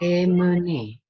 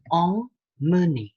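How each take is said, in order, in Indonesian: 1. Vokal pertama itu oral, tidak sengau. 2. Vokal pertama itu sengau. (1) "Lalu ada kata emmener" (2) "bukan emmener"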